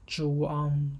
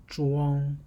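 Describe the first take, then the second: No difference in how they are said.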